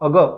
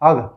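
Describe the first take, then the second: First: The final sound is drawn out long. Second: The final sound is cut short.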